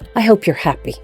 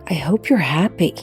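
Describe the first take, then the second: First: It sounds cold and threatening. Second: It sounds hurt and wounded. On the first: The speaker wants to punish the other person. "your subtext might be, you'll regret this" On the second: The speaker wants the friend to apologize. "your subtext might be, how could you do that?"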